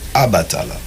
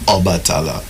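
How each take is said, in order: First: The name begins with an 'a' vowel sound. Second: The name begins with an 'o' vowel sound. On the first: This is how older generations said the name. "they would say Abatala. Just a slight variation" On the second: This is how the name is said now. "The old people wouldn't say Obatala"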